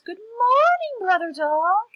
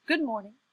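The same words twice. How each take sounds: First: High, loud, drawn-out sugary greeting; sweetest voice. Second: Short, mildly gruff greeting; rather gruff. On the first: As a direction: sing out the greeting as sweetly as possible. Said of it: "in his sweetest voice". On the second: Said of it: "rather gruffly". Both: Acted.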